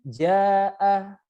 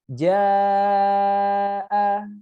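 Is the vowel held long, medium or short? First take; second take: short; long. First: The vowel is held briefly, two beats. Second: The vowel is held longest, five beats. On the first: "Kalau dua harokat berarti jaa" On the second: "Setelah diayun dua kali, tambahkan sedikit"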